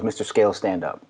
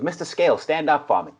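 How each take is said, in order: First: Said in the usual way. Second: Imitating a thick Boston accent, pitched higher; heavy Boston accent. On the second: Recruiting coach telling the player to stand, heavy Boston accent. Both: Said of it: "real heavy Boston accent".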